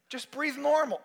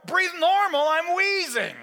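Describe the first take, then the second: First: Raised pitch, contained volume; acted nurse coaching; insistent instruction. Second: Very high, loud echo; acted exasperated shout; incredulous outburst. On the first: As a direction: tell the patient firmly. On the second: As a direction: fling it back in panicked outrage. Patient's outraged echo.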